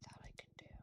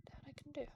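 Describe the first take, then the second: First: Whispered under breath. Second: Said in the usual way. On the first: Real, not acted. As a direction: say it in a hushed whisper. Whispered, then repeated aloud.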